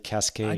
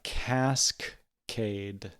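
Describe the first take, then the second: First: The word is said quickly and smoothly. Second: The word is said slowly and drawn out. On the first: The speaker calls it right. "but you just you just gotta say" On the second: The speaker calls it wrong. "I think I made it harder by saying it slowly"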